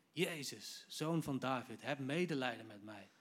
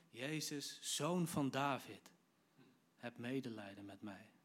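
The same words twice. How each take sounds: First: Raised, insistent call; imitating a beggar's urgent cry; crying out harder. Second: Measured call, dropping off at the end; restrained retelling of a beggar's call. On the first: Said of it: "hij riep des te harder". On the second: Retold or imitated. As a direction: call out slowly, then ease down into the plea. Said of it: "hij begint te roepen".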